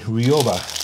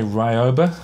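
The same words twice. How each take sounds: First: The first syllable sounds like 'ree'. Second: The first syllable sounds like 'rye'. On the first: The speaker calls it right. "you should pronounce it like a Japanese person. Where the Y doesn't say I, it says E" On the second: The speaker calls it wrong. "A lot of Americans say Ryoba"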